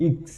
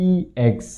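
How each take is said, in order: First: "ইক্স" said clipped as one short "iks"; correct syllable. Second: "ইএক্স" read softly, letter by letter as spelled; first syllable as written. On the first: Teacher gives students the correct first syllable, crisp. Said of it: "উচ্চারণ হবে সঠিক". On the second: Teacher reads the syllable off the whiteboard, soft and plain. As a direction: quietly read out "ইএক্স" as it appears on the board. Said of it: "প্রথম সিলেবলটি হচ্ছে". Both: Shown as a demonstration.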